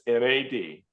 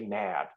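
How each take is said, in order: First: It is said as three separate letters. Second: It is said as a single word, 'nad'. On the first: The speaker calls it right. "It's not gonads, it's N A D" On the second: The speaker calls it wrong. "please don't say N A D. That is not a good way to say it"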